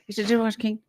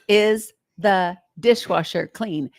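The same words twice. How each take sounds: First: It is said fast and rushed. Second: It is said slowly and clearly.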